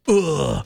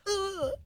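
First: It is a low, guttural grunt. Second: It is a higher-pitched grunt.

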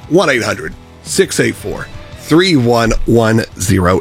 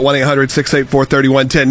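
First: The number is read at a slow pace. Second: The number is read at a quick pace.

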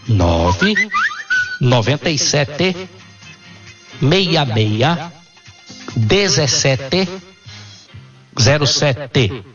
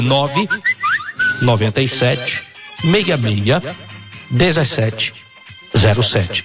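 First: The number is said at a slow pace. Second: The number is said at a fast pace.

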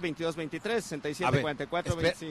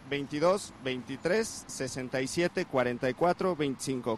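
First: The number is said fast. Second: The number is said slowly.

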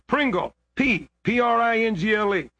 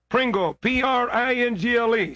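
First: The name is spelled out slowly. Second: The name is spelled out fast.

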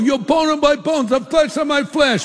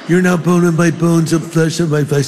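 First: It is said in an East Coast accent. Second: It is said in a California accent.

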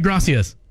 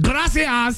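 First: It is said in a plain American accent. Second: It is said with a put-on Spanish accent.

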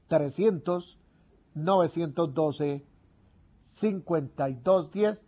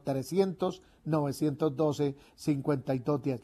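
First: The number is said slowly. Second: The number is said at normal speed.

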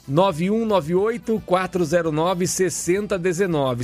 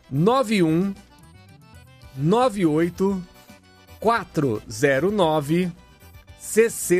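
First: The number is read at normal, quick pace. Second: The number is read slowly and deliberately.

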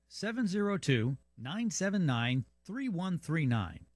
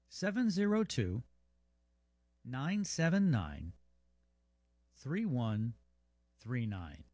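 First: The number is read at a quicker pace. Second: The number is read at a slower pace.

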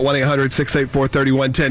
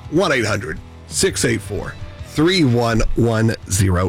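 First: The number is said fast. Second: The number is said slowly.

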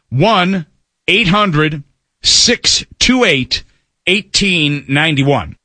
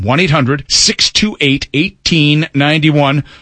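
First: The number is read at a slow pace. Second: The number is read at a fast pace.

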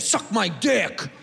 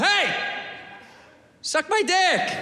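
First: It is said in a hostile, negative tone. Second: It is said in a nice, friendly tone.

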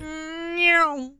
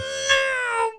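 First: The meow is weak and quiet. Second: The meow is loud and intense.

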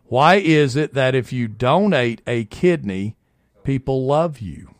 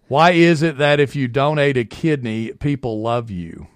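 First: It is read slowly. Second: It is read at normal speed.

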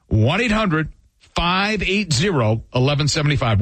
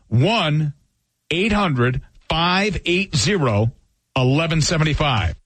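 First: The number is read at normal speed. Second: The number is read slowly.

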